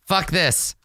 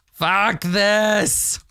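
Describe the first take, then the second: First: Said in the usual way. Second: Higher, drawn-out angry cry; angry outburst. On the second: Acted. Player voices the fed-up climber, angry outburst. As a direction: stretch it out into an exasperated yell.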